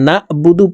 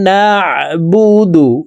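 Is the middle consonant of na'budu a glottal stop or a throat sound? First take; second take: glottal stop; throat sound. First: The middle has a light glottal catch only. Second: The middle has a squeezed sound from the throat. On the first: The speaker calls it wrong. "এই আইনকে হামজার উচ্চারণ করে থাকি" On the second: The speaker calls it right. "শুদ্ধ করে আমাদের পড়তে হবে"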